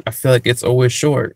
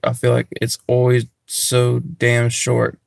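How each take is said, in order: First: Said in the usual way. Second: "always" leaned on, the line slowed down; stress on always. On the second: Shown as a demonstration. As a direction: drag out "always so damn short" to complain.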